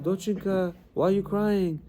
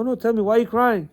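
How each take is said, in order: First: Higher, gently voiced old lady; lightly imitated kindly neighbour; concerned old lady. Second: Higher-pitched, pressing question; imitating an insistent neighbour; insistent concern. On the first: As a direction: ask with tender concern. Old lady comforting crying mother. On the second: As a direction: press kindly for an answer. Old lady presses for an answer.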